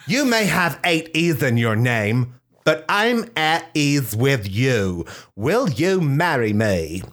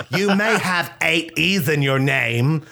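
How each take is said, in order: First: Romantic proposal. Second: Wife's romantic line. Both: Pretend. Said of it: "Portia de Rossi said".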